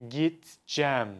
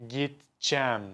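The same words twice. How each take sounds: The two takes are said the same way.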